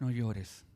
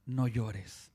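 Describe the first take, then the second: First: Consoling. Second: Tender. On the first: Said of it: "Cuánto consuelo hay en estas palabras". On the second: Jesus looking at the widow, tender and low. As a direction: say it low and kind. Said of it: "la observa y le dice". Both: Retold or imitated.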